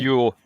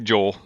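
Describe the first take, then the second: First: The name begins with a Y sound. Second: The name begins with a J sound. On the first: The speaker calls it right. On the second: The speaker calls it wrong. "everyone wants to say Joel"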